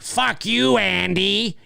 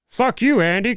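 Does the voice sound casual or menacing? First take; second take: menacing; casual. First: It is said in a harsh, menacing put-on voice. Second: It is said in a light, casual, friendly voice. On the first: This is the character's familiar style. The speaker calls it right. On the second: The character's identity has been changed. The speaker calls it wrong.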